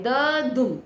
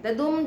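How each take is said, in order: First: "द दुम" broken in two, "द" then "दुम" with a gap; split into two parts. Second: Said in the usual way. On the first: Shown as a demonstration. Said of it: "ये बटा कितने में है". ("द दुम" को दो हिस्सों में तोड़कर, बीच में रुककर बोलें) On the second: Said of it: "वो एक वर्ड है".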